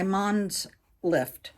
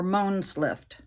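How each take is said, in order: First: "Mons" said like "monz", with an ah; short open "ah" vowel in "Mons". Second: "Mons" said like "moans"; long "oh" vowel in "Mons". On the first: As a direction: say "Mons" to rhyme with "bronze". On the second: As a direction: say "Mons" to rhyme with "bones", drawn out. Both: Shown as a demonstration. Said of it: "I don't know how to pronounce that".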